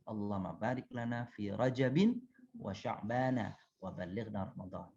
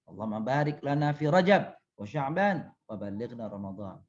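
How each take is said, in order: First: Rajab is said with a final -in ending. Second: Rajab is said with no final vowel at all. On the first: It follows the grammar rule for this word. "yang benar itu" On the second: It avoids showing any case ending, so no error. "maka boleh diwakafkan"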